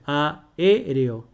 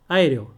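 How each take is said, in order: First: The first two vowels form separate syllables. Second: The first two vowels merge into one syllable. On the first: The speaker calls it right. "tú dices aéreo. Entonces, de esa manera tú separas en sílabas" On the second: The speaker calls it wrong. "No dices AE, aéreo"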